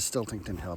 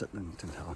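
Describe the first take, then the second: First: The name begins with the sounds 'stilt'. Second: The name begins with the sounds 'sit'. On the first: The speaker calls it wrong. "I always want to mispronounce as Stiltington Hill" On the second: The speaker calls it right. "but it's not, it's Sitlington Hill"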